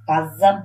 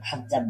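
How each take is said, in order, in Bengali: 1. এটি সাধারণ k ধ্বনি দিয়ে শুরু হয়। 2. এটি একটি খসখসে, গলার ভেতর থেকে আসা kh ধ্বনি দিয়ে শুরু হয়। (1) "কাজ্জাব বলতে" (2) "খাজ্জাব বলা বলা হয়েছে"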